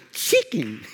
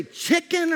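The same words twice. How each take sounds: First: "chicken" in a put-on Mexican accent. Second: Said in the usual way. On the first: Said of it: "talking to me with an accent". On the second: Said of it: "or did you say chicken".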